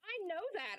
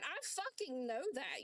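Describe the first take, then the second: First: Said in the usual way. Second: "fucking" hit hard and slowed, words dragged out; slow emphatic stress. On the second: Real, not acted. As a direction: spell each word out slowly, leaning on "fucking". Angry argument, repeats statement.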